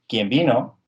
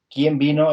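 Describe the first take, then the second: First: The first word is said without stress. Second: The first word carries its own stress. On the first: It is a relative pronoun meaning whoever came. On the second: It is a question word introducing an embedded question.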